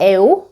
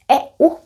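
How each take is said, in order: First: The two vowels glide together in one syllable. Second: The two vowels are split into separate syllables. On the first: The speaker calls it wrong. "Eu is not a diphthong. It's not eu" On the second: The speaker calls it right. "It's eu because we break it"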